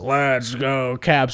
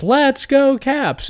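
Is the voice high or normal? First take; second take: normal; high. First: It is said in a normal, lower voice. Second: It is said in a high-pitched voice. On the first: A man is calling it. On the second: A woman is calling it.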